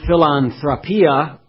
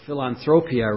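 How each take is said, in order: First: The O is pronounced as a short vowel. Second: The O is pronounced as a long vowel. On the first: The speaker calls it wrong. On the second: The speaker calls it right.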